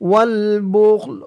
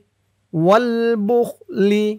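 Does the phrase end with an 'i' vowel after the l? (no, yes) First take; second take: no; yes. First: The phrase ends on a bare l sound. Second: The final l is followed by an i vowel. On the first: The reading stops at this word. "অক্ফ করার কারণে লামের নিচে জেরটা সাকিন হয়ে গেছে" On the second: The reading continues on without stopping. "লাম জের লি"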